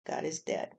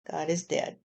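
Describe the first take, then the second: First: Whispered echo. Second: Said in the usual way. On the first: Pretend. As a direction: drop to an unvoiced whisper. Repeated line, whispered echo.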